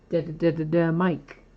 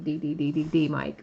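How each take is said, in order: First: Each letter is said as a short 'da'. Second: Each letter is said as its name 'dee'. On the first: The speaker calls it wrong. "It's probably not supposed to be that, but that's how I said it" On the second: The speaker calls it right. "It's probably supposed to be"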